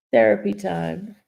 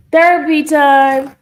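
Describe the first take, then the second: First: Said in the usual way. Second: Loud, high, drawn-out call. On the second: Real, not acted. Streamer breaking her tearful moment, calling out. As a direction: announce it loudly, stretching the words. Calls out mid-stream after tearing up.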